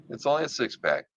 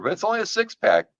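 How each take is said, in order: First: Said in the usual way. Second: "only" jumps up high and is stretched out; stress on only. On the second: Acted. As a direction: hit "only" hard and high in pitch. Joking about the character's abs.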